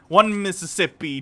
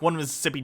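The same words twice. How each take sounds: First: It is said slowly. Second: It is said fast.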